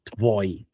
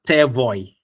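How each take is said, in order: First: The t and v run together with no vowel. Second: An e-like vowel separates the t and v. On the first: The speaker calls it right. "It's Tvoy" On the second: The speaker calls it wrong. "I wasn't Tevoy or Tavoy"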